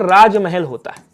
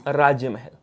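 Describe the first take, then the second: First: Slowed teaching demo. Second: Said in the usual way. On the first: Shown as a demonstration. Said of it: "क्या होता है बोलो sir?". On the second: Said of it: "राजा का महल".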